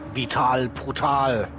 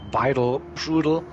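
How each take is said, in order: First: The name is said with a German pronunciation. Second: The name is said with an English pronunciation. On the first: "I go with like the German part" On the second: "So you pronounced the driver"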